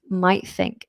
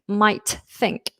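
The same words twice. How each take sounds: First: The t of might is dropped. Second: The t of might is fully pronounced. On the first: The speaker calls it right. "might think is absolutely fine" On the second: The speaker calls it wrong. "it will sound unnatural if you make that much effort"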